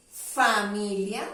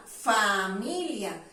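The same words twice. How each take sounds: First: Said in the usual way. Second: "familia" slowly, with a long "faaa"; sonido fa alargado. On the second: Shown as a demonstration. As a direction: hold the first syllable of "familia" to show the fa sound. ("familia" lento, alargando la "fa" inicial) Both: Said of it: "suena el sonido fa".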